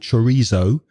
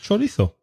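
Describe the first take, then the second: First: It is said with a British pronunciation. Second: It is said with a Spanish pronunciation. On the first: "the pronunciation from British people" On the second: "although it's a Spanish word"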